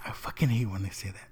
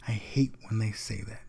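First: Quick, quiet annoyed grumble. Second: Quiet, held-back complaint; restrained complaint. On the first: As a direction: rush it under your breath, irritated. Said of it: "you can tell he wanted to say". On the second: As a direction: say it quietly, keeping the annoyance in. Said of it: "but he just said". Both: Retold or imitated.

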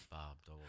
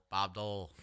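First: Much lower, much softer repeat; Bob Dole echo. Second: Said in the usual way. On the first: Retold or imitated. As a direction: let the name fade into a low mumble. Family Guy Bob Dole bit.

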